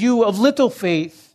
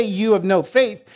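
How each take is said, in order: First: "little" pressed, falling to "faith"; stress on LITTLE. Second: "You of no faith." with a light rise on "faith"; the wrong wording. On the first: Preacher gives the Lord's true words, stressing "little". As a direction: lean on the word "little". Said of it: "He says". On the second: Preacher contrasts the wrong wording, light rise on "faith". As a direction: set up the reading he doesn't use, "faith" lifting. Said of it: "But he doesn't say". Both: Shown as a demonstration.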